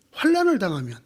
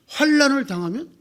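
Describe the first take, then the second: First: Said in the usual way. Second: 환난을 당하면 asked with a rising end; asking tune. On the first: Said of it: "여러분은 뭐라고 대답하시겠습니까". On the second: Shown as a demonstration. Pastor quizzing the congregation, rising question tune. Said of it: "응?".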